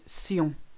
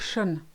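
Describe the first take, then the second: First: The ending is pronounced with an s sound. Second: The ending is pronounced with an sh sound. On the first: The speaker calls it right. "the T I O N ending is sion" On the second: The speaker calls it wrong. "It's never shun, as in English"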